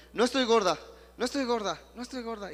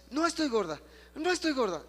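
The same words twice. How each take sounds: First: Higher, louder, believing every word; said with conviction. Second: Higher and louder, fully convinced; said even more strongly. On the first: Pastor acting out a woman's conviction, higher and louder. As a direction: repeat it like you finally believe it. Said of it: "Repítelo creyéndolo". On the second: Pastor voicing the woman's stronger repetition, higher and louder. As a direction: push it up, proclaim it. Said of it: "dilo así". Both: Retold or imitated.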